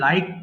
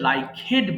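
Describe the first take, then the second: First: The ending adds no extra syllable. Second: The ending is an extra syllable. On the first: The speaker calls it right. "এটা হবে লাইকড" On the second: The speaker calls it wrong. "অনেকে ভুল উচ্চারণ করে"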